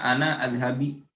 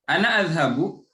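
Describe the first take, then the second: First: The last word ends with an 'i' vowel. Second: The last word ends with an 'u' vowel. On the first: The speaker calls it wrong. "Kalau ana adhabi berarti salah dalam pengucapan gitu" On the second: The speaker calls it right. "Karena dia itu adhabu seperti itu"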